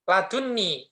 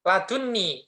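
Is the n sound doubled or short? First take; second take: doubled; doubled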